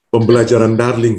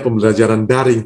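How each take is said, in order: First: The second word has an added L sound. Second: The second word has no L sound. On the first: The speaker calls it wrong. "kadang-kadang ada orang salah sebut jadi darling" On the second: The speaker calls it right. "harusnya pembelajaran daring"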